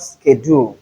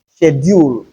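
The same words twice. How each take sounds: First: Schedule as SKED-ool; non-British schedule. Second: Schedule as SHED-yool; British pronunciation of schedule. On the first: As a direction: begin schedule with "sk". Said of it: "and not schedule". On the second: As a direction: begin schedule with "sh". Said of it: "As long as British English is concerned". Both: Shown as a demonstration.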